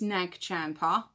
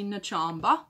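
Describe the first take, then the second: First: It is said with a g and a p sound. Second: It is said without a g, with a b sound. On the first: This is the usual name others use. "it's Nagchampa" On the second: This is a personal way of saying it. "I say Nachamba, and that's how I pronounce it"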